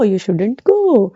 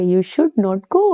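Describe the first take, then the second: First: The two words merge into two short syllables. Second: Both words are said separately in full. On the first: "इसको तो पढ़ते हैं शुडंट" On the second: "शुड नॉट"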